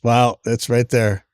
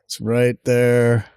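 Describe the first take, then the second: First: Slow, amazed wow; dawning joy. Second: Slow, savoring "there"; dawning joy. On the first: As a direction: stretch it out in disbelief. Finds the item in the store. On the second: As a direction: drag out "there" in happy disbelief. Repeats the find, savoring it. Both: Real, not acted.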